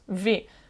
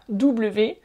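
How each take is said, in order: First: The letter is named the German way. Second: The letter is named the French way. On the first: The speaker calls it right. "en allemand on prononce V" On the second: The speaker calls it wrong. "c'est pas W"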